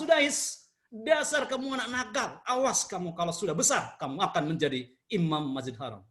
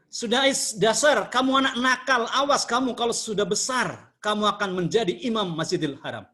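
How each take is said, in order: First: Positive scolding. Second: Mock angry scolding. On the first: Retold or imitated. Mother lovingly scolds little Sudais, gentle positive anger. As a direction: scold him but with love, easing down at the end. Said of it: "ibunya marah yang positif". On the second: Mother scolds her naughty son during guests, mock angry. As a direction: play the mother telling off her mischievous son. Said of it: "Ibunya marah sekali".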